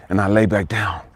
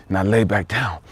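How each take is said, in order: Both takes have the same delivery.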